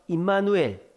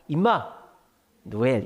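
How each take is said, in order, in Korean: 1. 끊지 않고 한 단어로 말합니다. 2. '임마' 뒤에서 두 덩어리로 나뉩니다.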